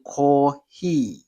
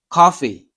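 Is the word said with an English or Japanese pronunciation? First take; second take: Japanese; English. First: It is said with a Japanese pronunciation. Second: It is said with an English pronunciation. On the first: "in Japanese, they have to say kohi" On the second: "like say coffee"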